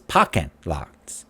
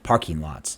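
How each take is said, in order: First: The r in parking is dropped, Boston style. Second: The r in parking is clearly pronounced. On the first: "But how he says it is parking lots" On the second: "so parking lots"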